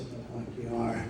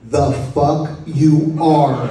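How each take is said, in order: First: Muttered retort. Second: Slow, deliberate mock retort, laughing through it; slow punchline retort. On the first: Retold or imitated. John grumbling back at the nurse, muttered under breath. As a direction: mimic a weak sick man grumbling under his breath. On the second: Retelling John's line to the mourners, slow and laughing. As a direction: drag the punchline out, each word spaced.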